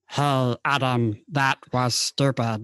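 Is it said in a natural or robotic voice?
robotic. It is said in a robotic voice.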